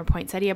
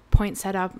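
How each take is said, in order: First: "poinsettia" ending in "-ee-uh"; "poinsettia" with an "ee" before the final "a"; four-syllable pronunciation. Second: "poinsettia" ending in plain "-setta"; "poinsettia" without the "ee" before the final "a"; three-syllable pronunciation. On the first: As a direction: say "poinsettia" as poin-SET-ee-uh. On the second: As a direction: say "poinsettia" as poin-SET-uh. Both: Shown as a demonstration. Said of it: "depending on how you wanna pronounce it".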